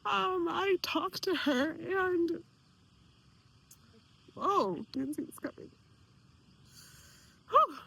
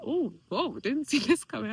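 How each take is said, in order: First: Slow, hushed, fighting back real tears; telling followers about the aunt, voice catching with tears; choked up. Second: Surprised laugh. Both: Real, not acted. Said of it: "I didn't know this was gonna cry".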